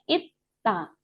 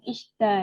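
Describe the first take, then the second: First: The middle is a doubled hard t. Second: The middle is an s followed by d. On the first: The speaker calls it right. "ini bacanya itta" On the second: The speaker calls it wrong. "Bukan isda ya"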